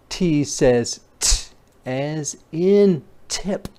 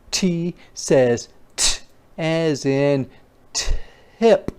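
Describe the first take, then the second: No difference in how they are said.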